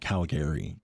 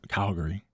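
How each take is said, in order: First: The word is said slowly and fully. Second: The word is said quickly and clipped. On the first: This is not how locals usually say it. "not Calgary" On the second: This is how locals usually say it. "That's said really fast"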